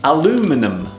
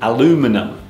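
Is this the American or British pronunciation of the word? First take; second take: American; American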